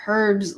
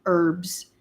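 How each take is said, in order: First: "herbs" with an audible h at the start; herbs, h sounded. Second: "herbs" said as "erbs", no h; herbs, h dropped. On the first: Telling viewers how Canadians say it, "herbs" with h sounded. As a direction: say "herbs" as "hurbs", h first. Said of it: "they say herbs like a Rasta". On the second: Doubting Canadians say it so, "herbs" as "erbs". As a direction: say "herbs" starting on the vowel: erbs. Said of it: "I don't think Canadians say". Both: Shown as a demonstration.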